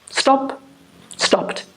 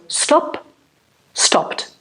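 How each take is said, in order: Both takes have the same delivery.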